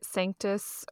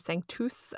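First: The word is said in a plain English way. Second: The word is said in a church Latin way. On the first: This is how the company name is usually said. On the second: This is how Catholics say the word.

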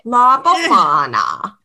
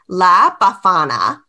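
First: The name is said in an Italian accent. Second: The name is said in a plain accent. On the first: "It's the only way that I can do an Italian accent" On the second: "I'm probably butchering it"

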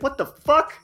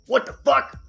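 First: The words are said in an ordinary voice. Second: The words are said in a deep voice. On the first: The speaker calls it wrong. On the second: The speaker calls it right.

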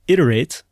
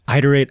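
First: The first vowel is a short 'it' sound. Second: The first vowel is a long 'eye' sound. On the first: The speaker calls it right. "it is pronounced iterate with a short I" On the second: The speaker calls it wrong. "I pronounced it iterate with a long I in the beginning, not a short I"

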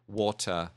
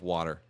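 First: It is said with a British accent. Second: It is said with an American accent. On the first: This is how the child says it, picked up from the show. "my daughter says water" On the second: This is the usual local way of saying it. "instead of water"

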